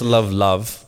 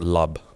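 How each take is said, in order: First: The word ends with a v sound. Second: The word ends with a b sound. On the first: "It's love" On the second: "but they pronounce it lub"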